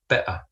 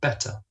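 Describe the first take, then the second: First: The middle t is a glottal stop. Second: The middle t is a clear t.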